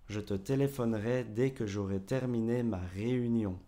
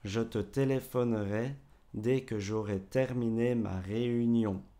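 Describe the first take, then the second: First: The sentence is spoken at normal speed. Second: The sentence is spoken a little more slowly.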